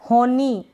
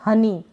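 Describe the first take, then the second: First: The first vowel sounds like 'oh'. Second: The first vowel sounds like 'uh'. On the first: The speaker calls it wrong. "होनी ऐसे नहीं पढ़ेंगे" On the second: The speaker calls it right. "इसको हम अ पढ़ रहे हैं"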